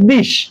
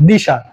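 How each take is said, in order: First: The word ends in a consonant. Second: The word ends in an added a vowel. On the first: "মূল শব্দটা" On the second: "একটি আ স্বরের আগমন ঘটেছে"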